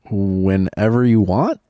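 It ends rising, like a question.

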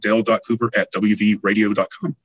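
It is said in a polished announcer voice.

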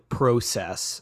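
It is said with a Canadian pronunciation. "Canadian customers ... often say process"

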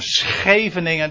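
It is said with a Dutch accent. The speaker is a native Dutch person. "dat is zo'n typische Nederlandse uitspraak"

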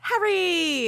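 It imitates Hermione's voice from the audiobook.

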